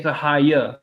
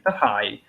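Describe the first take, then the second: First: The final vowel sound is pronounced aloud. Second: The final vowel sound is left silent. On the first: The speaker calls it wrong. "No one will say the higher" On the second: The speaker calls it right. "no one pronounces the uh at the end"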